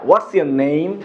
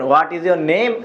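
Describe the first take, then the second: First: 'What is' is shortened to one syllable. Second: 'What is' is said as two full words. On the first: The speaker calls it right. "বলেন হোয়াটস your name" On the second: The speaker calls it wrong. "Not হোয়াট ইজ your name"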